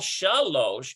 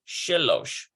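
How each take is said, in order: First: The first vowel is a full open vowel. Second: The first vowel is short and reduced. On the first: "We've got a full shalosh" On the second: "it reduces the vowel"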